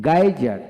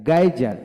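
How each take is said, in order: Both takes have the same delivery.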